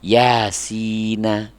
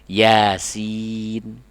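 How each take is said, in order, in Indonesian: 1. N di akhir diikuti vokal. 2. N di akhir ditahan, tanpa vokal.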